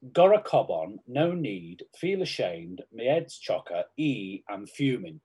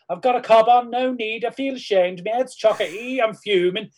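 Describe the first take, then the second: First: Scouse accent. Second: High, loud, broad Scouse accent. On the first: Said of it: "it's Scouse sayings". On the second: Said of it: "learn how to do a Scouse accent". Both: Shown as a demonstration.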